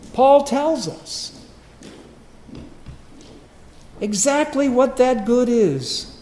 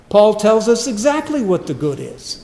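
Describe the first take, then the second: First: Drawn out and high, each word laid down heavily, "Paul tells us" spaced apart; slow it right down and lean on every word; slow emphatic repeat. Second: Loud preaching. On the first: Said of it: "repeated for emphasis". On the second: Preacher restates the line. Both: Acted.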